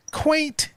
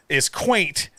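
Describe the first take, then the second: First: "quaint" pitched way up high; playful high repeat. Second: Said in the usual way. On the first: Shown as a demonstration. Repeats word for the listeners.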